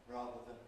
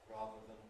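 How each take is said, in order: No difference in how they are said.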